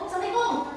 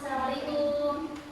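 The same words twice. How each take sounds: First: It is said hastily and carelessly, in passing. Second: It is said clearly and sincerely, unhurried. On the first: The greeting is not meant sincerely. The speaker calls it wrong. "tanpa melihat mukanya. Nah, itu kurang betul adabnya ya" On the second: The greeting is meant sincerely. The speaker calls it right. "Yang betul harus jelas dan harus tulus"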